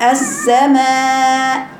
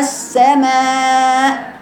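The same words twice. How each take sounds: First: السماء with the hamza softened, floating, slow; eased hamza. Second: السماء slow, the final hamza voiced up and fully articulated; clear hamza, raised voice. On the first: Teacher shows a wrong reading with an eased hamza. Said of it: "مسهلة بين بين". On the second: Teacher shows the fix, voice raised on the hamza. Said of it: "أرفع صوتي وحقق المخرج". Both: Shown as a demonstration.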